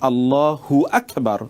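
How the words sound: 'Hu' is joined onto Akbar, split after Allah. The meaning becomes distorted. The speaker calls it wrong. "হু আকবার যদি আপনি বলেন, তাহলে মনে হচ্ছে যেন হুটা আকবরের সাথে সম্পৃক্ত"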